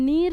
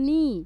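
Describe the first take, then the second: First: The syllable ends with an r sound. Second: The syllable ends with a sound from the throat. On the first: The speaker calls it wrong. "অনেক সময় নীর শুনতে পান" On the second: The speaker calls it right. "এই নিটা গলার মধ্যে"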